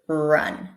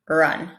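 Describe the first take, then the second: First: The R is strong, with rounded lips. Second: The R is weak, with relaxed lips. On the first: The speaker calls it right. "we want the second one, we want the rounded one" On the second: The speaker calls it wrong. "But if I relax them"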